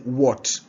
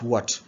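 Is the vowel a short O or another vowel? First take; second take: short O; another vowel. First: The vowel is a short O. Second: The vowel is not a short O. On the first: The speaker calls it right. "As in what" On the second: The speaker calls it wrong. "not what"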